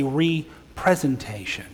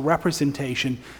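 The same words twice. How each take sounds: First: The opening 're' is set apart from the rest. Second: The word is said the ordinary way, run together. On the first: It makes something present again. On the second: It depicts something.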